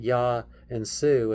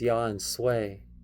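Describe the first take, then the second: First: The last word ends with an 'oo' vowel. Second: The last word ends with an 'ay' vowel. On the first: "so it's not Yah and Sioux" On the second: "I'm pronouncing it funny"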